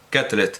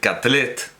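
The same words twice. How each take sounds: First: The surname is pronounced the English way. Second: The surname is pronounced the Catalan way. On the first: The speaker calls it right. "es un apellido inglés" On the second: The speaker calls it wrong. "no voy a decir Catlet, porque no es un apellido catalán"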